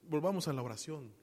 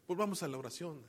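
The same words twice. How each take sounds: The two takes are said the same way.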